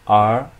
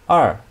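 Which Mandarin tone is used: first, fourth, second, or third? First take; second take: second; fourth. First: The pitch rises from mid to high. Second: The pitch falls sharply from high.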